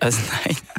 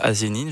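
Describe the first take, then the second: First: The name ends with the sound 'neuf'. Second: The name ends with the sound 'nine'. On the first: The speaker calls it right. "ça se dit Az9. Je le prononce correctement" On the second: The speaker calls it wrong. "ça se dit pas Azenine"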